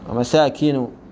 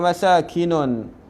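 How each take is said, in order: First: The last word ends in a plain u vowel. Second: The last word ends with an added n sound. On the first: The speaker calls it right. "perkataan masakin dibaca dengan dhammah tanpa tanwin" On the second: The speaker calls it wrong. "Jangan dibaca wa masakinun. Tak boleh"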